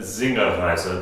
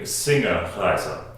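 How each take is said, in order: First: The word begins with a Z sound. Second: The word begins with an S sound. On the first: It is the German-style pronunciation. "that we used in the first few videos with a Z sound on it" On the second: An English word is combined with a German word. "putting an American word with a German word"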